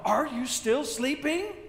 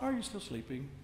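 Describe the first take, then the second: First: It sounds annoyed and put out. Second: It sounds neutral, without annoyance.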